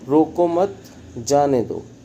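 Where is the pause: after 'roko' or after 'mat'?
after mat. The pause comes right after 'mat'. Let them go. "और यहाँ पर जाने दो की बात हो रही है"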